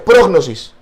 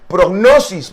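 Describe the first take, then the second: First: "prognosis" stressed on the first O, PROG-nosis. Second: "prognosis" with stress on the second O, progNOsis; the guessed wrong stress. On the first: Pastor giving the concordance stress, PROG-nosis. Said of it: "el tilde la tiene en la, en la primera O". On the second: Pastor showing the congregation's likely stress, progNOsis. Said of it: "yo imagino que usted le va a decir prognosis". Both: Shown as a demonstration.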